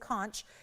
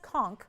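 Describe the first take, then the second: First: The word does not rhyme with conked. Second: The word rhymes with conked. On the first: The speaker calls it wrong. "why don't you say conch" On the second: The speaker calls it right. "it is pronounced conch, like I just conked my head"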